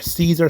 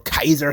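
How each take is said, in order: First: The name begins with an S sound. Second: The name begins with a K sound. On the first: The speaker calls it wrong. "what you call Caesar" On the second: The speaker calls it right. "which is the appropriate pronunciation"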